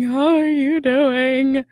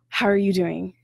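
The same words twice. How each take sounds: First: The voice sounds tearful, as if crying. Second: The voice is steady and plain. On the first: "Or they themselves might be crying, saying" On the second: "And they don't say it like that"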